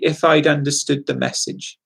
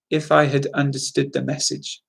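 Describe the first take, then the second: First: Had is reduced to a short d sound. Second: The word had is said in full.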